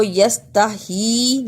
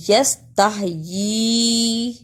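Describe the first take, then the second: First: यस्तही with plain hī, y left out; wrong reading. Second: यस्तहयी with a clear, long yī at the end; slow यस्तहयी down and hold the final yī; correct reading. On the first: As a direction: end यस्तही on hī without the y. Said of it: "नहीं पढ़ते". (यस्तही, आख़िर में सिर्फ़ ही) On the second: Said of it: "पढ़ा गया है". (यस्तहयी, आख़िर में लंबी यी) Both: Shown as a demonstration.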